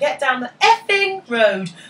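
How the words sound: The swear word sounds awkward and stilted.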